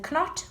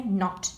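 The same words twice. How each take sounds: First: Knot said as k-not with a hard k; wrong knot, k-not; k sounded. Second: Said in the usual way. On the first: Shown as a demonstration. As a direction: sound the silent k in knot on purpose. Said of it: "We don't say knot". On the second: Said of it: "we say knot".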